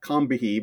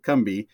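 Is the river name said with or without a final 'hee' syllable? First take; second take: with; without. First: The name is said with a final 'hee' syllable. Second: The name is said without a final 'hee' syllable. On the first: This is how the spelling suggests it. "it should be like Combihee" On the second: This is how local people say it. "the locals there pronounce it Combi"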